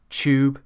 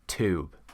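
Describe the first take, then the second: First: It is said in a British accent. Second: It is said in an American accent. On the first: "they are the British ways"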